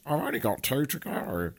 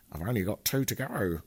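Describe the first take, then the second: First: Higher, silly put-on voice; hammed-up funny voice, unlike your own; odd put-on voice. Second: Lightly put-on silly voice on the countdown; odd put-on voice. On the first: Shown as a demonstration. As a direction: repeat it in a daft, raised character voice. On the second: Real, not acted. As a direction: slip into a slightly funny voice, drawing out GO. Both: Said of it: "I said it in that voice".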